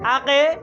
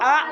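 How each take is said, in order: First: The final k is followed by an added vowel. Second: The final k ends with a short echoing bounce. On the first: The speaker calls it wrong. "জিমের মতন, বার মতন, তালের মতন আকে এরকম বলবেন?" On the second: The speaker calls it right. "কফের কলকলা আক"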